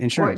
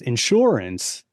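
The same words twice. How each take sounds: First: The stress is on the first syllable, in. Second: The stress is on the second syllable, sure.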